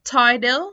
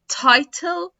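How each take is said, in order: First: Louder title as "tidle"; American flapped T. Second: Louder, higher British "title" with real T; British clear T. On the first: Teacher drilling T plus L examples, flapped T. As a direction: say title with D for middle T. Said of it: "هيتنطق D". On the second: Teacher contrasting with American D, British clear T. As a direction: say title as "tie-tel". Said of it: "في ال British accent". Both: Shown as a demonstration.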